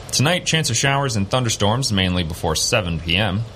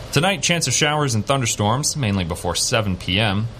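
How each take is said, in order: No difference in how they are said.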